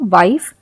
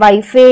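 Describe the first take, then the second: First: The word ends on the f with no vowel. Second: An extra eh vowel is sounded after the f. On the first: The speaker calls it right. "हम इसे पढ़ते हैं वाइफ" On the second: The speaker calls it wrong. "हमने ऐसा हम इसे नहीं पढ़ते हैं"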